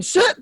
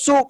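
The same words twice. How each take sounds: First: "Soup" high, with a questioning rise; puzzled, high-pitched "Soup"; soap said as "soup". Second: "soap" with a long oh vowel; soap pronounced clearly. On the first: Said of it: "'Cause I kept saying". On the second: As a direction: say "soap" with oh, as if it finally clicks. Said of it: "when he said soap". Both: Retold or imitated.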